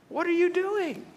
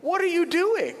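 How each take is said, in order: First: High, stretched incredulous cry; boy silently protesting his gift shut in a closet; exasperated disbelief. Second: High, loud disbelieving cry; twelve-year-old stunned as friend shelves his gift; shocked. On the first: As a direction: plead in comic disbelief. Exasperated inner outcry. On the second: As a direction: blurt it out in total disbelief. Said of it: "And I went". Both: Retold or imitated.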